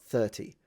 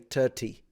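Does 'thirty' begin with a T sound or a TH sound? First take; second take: TH sound; T sound. First: It begins with a TH sound. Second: It begins with a plain T sound. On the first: "not thirty" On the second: "He pronounces it like a T. Like he will say thirty"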